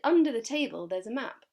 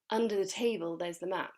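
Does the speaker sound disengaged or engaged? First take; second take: engaged; disengaged. First: The tone sounds engaged, present and helpful. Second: The tone sounds slightly disengaged and uninterested. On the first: The speaker wants to help the listener. "I'm engaged, I'm present, and I'm trying to help the person who I'm talking to" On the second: The speaker helps only out of obligation. "I'm slightly disengaged and I'm not so interested in helping the person"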